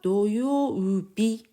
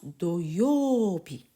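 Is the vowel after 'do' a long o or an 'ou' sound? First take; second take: ou sound; long o. First: The vowel after do is an 'ou' sound. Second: The vowel after do is a long o. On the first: The speaker calls it wrong. "on ne dit pas doyoubi" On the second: The speaker calls it right. "On prononce doyoubi"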